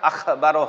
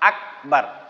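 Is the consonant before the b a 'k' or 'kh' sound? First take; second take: kh; k. First: The middle consonant is a breathy kh sound. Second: The middle consonant is a plain k sound. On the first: The speaker calls it wrong. "আখবারও হবে না" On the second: The speaker calls it right.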